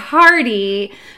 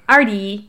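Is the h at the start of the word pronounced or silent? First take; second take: pronounced; silent. First: The word begins with an audible h sound. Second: The word begins with a vowel, no h. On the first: "It looks like" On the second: "the French would probably pronounce it more like Ardy"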